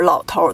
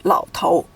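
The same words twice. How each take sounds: First: "老头" with an r-coloured end, lao tour; erhua pronunciation. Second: "老头" with a clean ou ending, lao tou; no erhua. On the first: Teacher showing the mainland form, "老头" with erhua. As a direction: curl an r onto the end of "老头". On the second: Teacher giving Taiwan usage, "老头" without erhua. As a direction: say "老头" with no r on the end. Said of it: "they just say". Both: Shown as a demonstration.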